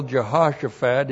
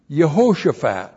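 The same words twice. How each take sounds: First: "Jehoshaphat" as juh-HOSH-uh-fat; English pronunciation. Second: Loud "Yehoshaphat", yuh-HO-shuh-faht; Hebrew pronunciation. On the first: Preacher cites English Bible word, "Jehoshaphat" with a J. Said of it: "English word in your Bible". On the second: Preacher teaches Hebrew original, "Yehoshaphat" with Y and long O. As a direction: start "Yehoshaphat" with Y, then a long O. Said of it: "the Hebrew word". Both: Shown as a demonstration.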